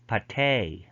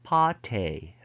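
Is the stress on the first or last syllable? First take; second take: last; first. First: The stress is on the last syllable. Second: The stress is on the first syllable. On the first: "they have end stress" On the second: "front stress"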